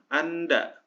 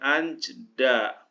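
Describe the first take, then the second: First: Only the n is pronounced. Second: Both n and j are pronounced. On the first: The speaker calls it right. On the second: The speaker calls it wrong.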